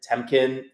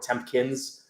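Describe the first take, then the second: First: The name has no extra p or s sound. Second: A p sound and a final s are added. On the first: The speaker calls it right. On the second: The speaker calls it wrong.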